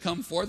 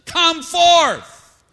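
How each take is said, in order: First: Said in the usual way. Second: Booming high shout, drawn out; loud, high-pitched commanding call; commanding pronouncement. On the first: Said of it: "If he just said". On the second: Acted. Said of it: "onto the pronouncement".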